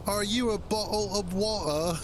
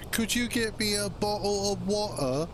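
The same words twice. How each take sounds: First: Put-on same pitched-up British accent, now as the Dune joke; hammed-up British accent aimed at a stranger; mock British accent. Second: Hammed-up British accent, the way Americans mock Brits. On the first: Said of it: "instead you walk up to them and go". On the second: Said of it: "the British accent".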